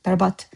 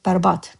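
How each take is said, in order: First: The word ends with a voiceless T sound. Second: The same.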